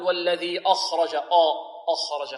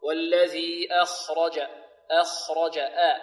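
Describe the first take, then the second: First: "أخرج" starting on a dark, backed "aw"; wrong heavy hamza. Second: Slow "أخرج" opening on a thin, front "a"; light hamza. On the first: Retold or imitated. Teacher shows the error, "أخرج" with heavy hamza. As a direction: thicken the first vowel of أخرج to "awkh-raja". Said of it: "لا نقول". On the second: Shown as a demonstration. Teacher corrects the error, "أخرج" with light hamza. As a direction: recite أخرج as akh-raja, first vowel light. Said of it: "خطأ".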